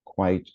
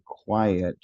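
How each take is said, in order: First: "quite" said slowly as one beat; one-syllable QUITE. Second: "quiet" said slowly in two beats, kwai-et; two-syllable QUIET. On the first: Teacher on students confusing two words, one-syllable "quite". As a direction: set "quite" apart as a single syllable. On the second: Teacher on students confusing two words, two-syllable "quiet". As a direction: sound both vowels of "quiet". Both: Shown as a demonstration. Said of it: "didn't know the difference between".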